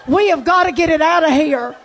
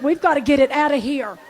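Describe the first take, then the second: First: "We have gotta" spelled out forcefully; emphatic repeat. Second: Quick retold plea, little push; hurried urgency. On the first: Retold or imitated. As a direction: hit "have" as a separate, insistent word. Same plea repeated more emphatically. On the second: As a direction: rattle it off while searching. Retold frantic search for smell.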